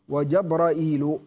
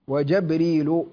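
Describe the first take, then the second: First: It has a glottal stop before the -il ending. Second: It begins Jab- with no glottal stop. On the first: "بالهمز" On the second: "بفتح الجيم"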